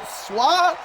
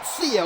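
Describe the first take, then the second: First: The name is said like 'swa'. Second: The name is said like 'seo'. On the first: "Is it Swa?" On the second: "It's not Seo. I was told that was wrong"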